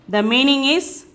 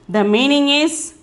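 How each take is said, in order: The two takes are said the same way.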